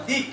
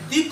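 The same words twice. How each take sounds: First: দিক ending on a bare k, no vowel; half-pronounced k. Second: দিক said as "di-ko" with a long final o; wrong full vowel. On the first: Teacher correcting the sound for students, দিক closed on a half k. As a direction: stop দিক short on the k. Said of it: "মানে ক এর অর্ধেক". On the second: Teacher showing what happens without hasanta, দিক stretched into "di-ko". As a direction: add a drawn-out vowel after the k of দিক. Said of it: "তাহলে কি উচ্চারণ হয়ে যেত". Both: Shown as a demonstration.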